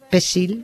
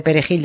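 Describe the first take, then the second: First: "pesil" with the middle "re" dropped and s for j; Haitian mispronunciation. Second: Said in the usual way. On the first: Retold or imitated. Host showing how Haitians failed the word, mispronounced "pesil". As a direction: say "pesil", two syllables with an s sound. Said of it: "esa palabra no sabían pronunciarla". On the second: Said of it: "en vez de perejil decían pesil".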